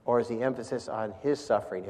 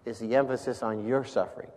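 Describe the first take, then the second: First: Softer, with "his" singled out; stress on HIS. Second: "your" singled out in the question; stress on YOUR. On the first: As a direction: lean on the word "his". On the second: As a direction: lean on the word "your". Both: Shown as a demonstration. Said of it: "it's the difference where you put the emphasis".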